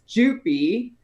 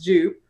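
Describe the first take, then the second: First: The name ends with a final vowel sound. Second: The name ends without a final vowel sound. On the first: The speaker calls it right. "the correct pronunciation is Jupy. The E is not silent" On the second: The speaker calls it wrong. "it has always been out pronounced Jupe"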